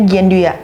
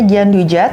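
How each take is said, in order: First: The middle consonant is a y sound. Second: The middle consonant is a j sound. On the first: This is how it is said in French. "kalau di French kita bilangnya Gianduya" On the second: This is how most people say it. "Mungkin orang kebanyakan bilangnya Gianduja"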